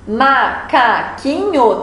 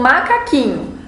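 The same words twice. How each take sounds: First: "macaquinho" slowly split into ma-ca-qui-nho; syllable by syllable. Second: Said in the usual way. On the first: Shown as a demonstration. Teacher showing pupils how many syllables a word has, syllable by syllable. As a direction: break "macaquinho" into four separate, drawn-out syllables. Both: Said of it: "tem quatro sílabas".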